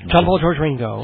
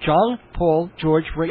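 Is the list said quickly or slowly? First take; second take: quickly; slowly. First: The names are run together quickly as one. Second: The names are said slowly, as separate items.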